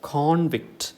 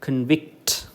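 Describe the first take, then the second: First: The stress is on the first syllable. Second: The stress is on the second syllable. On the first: It is the noun, a person found guilty. "The stress false on the first syllable" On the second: It is the verb, to declare someone guilty. "It falls on the second syllable"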